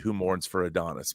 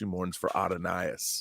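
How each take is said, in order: First: The name is said as Adonis. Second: The name is said as Adonais. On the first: The speaker calls it wrong. "for years, I said" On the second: The speaker calls it right. "but it's not. It's"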